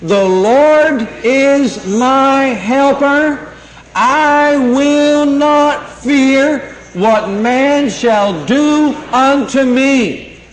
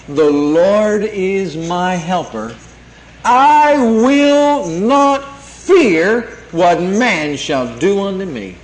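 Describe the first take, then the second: First: Higher, very slow, every word stretched for the church to follow; preacher leading a unison recitation, drawn out; slow call to repeat together. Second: Slow, weighty preacher's proclamation; slow emphatic declaration. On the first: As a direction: lead the congregation line by line, slowly. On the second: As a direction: draw out each word slowly, leaning on Lord. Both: Shown as a demonstration. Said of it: "Say it with me".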